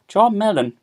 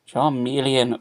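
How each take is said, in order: First: The name is said with three syllables. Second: The name is said with four syllables. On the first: The speaker calls it wrong. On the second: The speaker calls it right.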